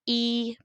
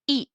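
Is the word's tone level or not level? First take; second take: level; not level. First: The syllable is said on a level tone. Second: The syllable is said on a non-level tone. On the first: It means one. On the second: It means one hundred million.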